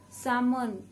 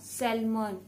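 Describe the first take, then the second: First: The L sound is silent. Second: The L sound is pronounced. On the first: The speaker calls it right. "L has to be silent here" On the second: The speaker calls it wrong. "not salmon"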